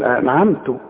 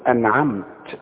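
First: The final t carries a vowel other than 'a'. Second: The final t has no vowel after it. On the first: The speaker calls it wrong. "ما بتاخدش بالها من التشكيل" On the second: The speaker calls it right. "إذا وقفت بسكن الحرف"

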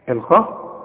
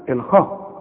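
Both takes have the same delivery.

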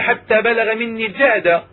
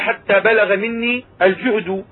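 First: The last word ends with an a vowel. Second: The last word ends with a u vowel. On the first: Exhaustion is the object that was brought upon him. "فعلى النصب إذا قلنا" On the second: Exhaustion itself reached its full extent in him. "وأما على الرفع إذا قلنا"

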